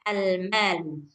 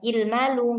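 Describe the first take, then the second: First: The word starts with an a vowel. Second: The word starts with an i vowel. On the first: The speaker calls it right. "dia harus almalu" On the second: The speaker calls it wrong. "nggak boleh ilmalu"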